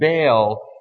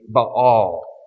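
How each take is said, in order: First: It is said the smoother, more familiar way. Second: It is said the harder, less familiar way. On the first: This is the usual, less accurate pronunciation. The speaker calls it wrong. "most commonly this false god is pronounced Baal" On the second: This is the more accurate pronunciation. The speaker calls it right. "more accurately, it would be Baal"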